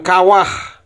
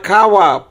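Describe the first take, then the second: First: The word ends with an audible h sound. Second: The word ends on a plain vowel. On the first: The speaker calls it wrong. "bukan kawah" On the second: The speaker calls it right. "bunyinya kawa"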